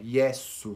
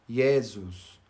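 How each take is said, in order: First: The s is voiceless, a plain hiss. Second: The s is lightly voiced, with some buzz. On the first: "sempre é melhor falar sem vozeá-lo" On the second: "a tendência é que a gente dê uma leve vozeada no S"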